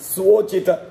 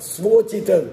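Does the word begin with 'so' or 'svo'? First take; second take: svo; svo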